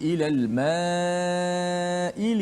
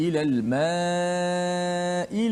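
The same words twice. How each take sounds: First: The vowel before the glottal stop is drawn out long. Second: The vowel before the glottal stop is drawn out long.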